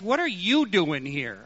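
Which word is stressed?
you. The stress falls on the word you. This person of all people should not be here. "he might have stressed, ... You of all people"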